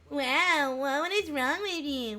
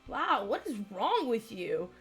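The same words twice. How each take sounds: First: It is said in a nasal voice. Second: It is said in a normal voice.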